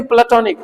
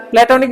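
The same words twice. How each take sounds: First: "प्लेटोनिक" with short "pluh", then "tonic"; corrected platonic. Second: "प्लेटोनिक" with full "play" at the start; mispronounced platonic. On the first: Teacher corrects students, saying "प्लेटोनिक" as "pluh-tonic". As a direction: reduce the start of "प्लेटोनिक" to "pluh-TON-ik". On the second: Teacher shows students the mistake, "प्लेटोनिक" starting with "play". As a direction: say "प्लेटोनिक" wrongly as "play-to-nik". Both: Shown as a demonstration. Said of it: "प्लेटोनिक नहीं".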